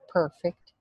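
The first vowel is said with an R sound. "central vowels plus the R"

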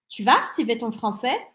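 The sentence has a questioning intonation. The speaker is asking whether you will activate your French. "Interrogação"

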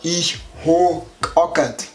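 It is said in Bavarian dialect. "Und im Bayerischen heißt es halt"

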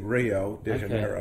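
The name is said with an American pronunciation. "the Americans say Rio de Janeiro"

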